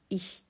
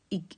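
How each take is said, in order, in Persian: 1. پایان کلمه صدای نرم «ish» است. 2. پایان کلمه صدای سخت «g» است. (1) "اونجا میگن ایش" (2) "شمال اتریش زندگی میکنم میگن ایگ"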